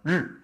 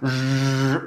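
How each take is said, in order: First: The sound is short and light. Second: The sound is exaggerated and drawn out. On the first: The speaker calls it right. "이걸 짧게 하는 거예요" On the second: The speaker calls it wrong. "이걸 막 과하게 르 이게 아니고요"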